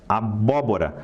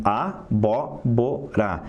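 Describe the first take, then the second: First: Said in the usual way. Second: Abóbora said slowly, syllable by syllable, weight on bó; slow syllable demo. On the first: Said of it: "abóbora são quatro sílabas". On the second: Shown as a demonstration. Teacher to students, abóbora slowly, stress on bó. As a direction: stretch out abóbora and lean on bó. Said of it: "E vai cair no bó".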